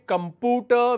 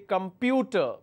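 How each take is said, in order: First: The p is followed directly by an oo sound. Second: The p is followed by a y sound. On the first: The speaker calls it wrong. "we don't say computer" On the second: The speaker calls it right. "we say computer. So we have a y sound"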